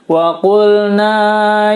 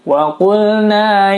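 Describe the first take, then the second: First: The long vowel is stretched well past the count. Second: The long vowel is held for a short count. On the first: The speaker calls it wrong. "Contoh melebihi dari dua harokat adalah membacanya seperti ini" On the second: The speaker calls it right. "Panjangnya dua harokat mad tabi'i"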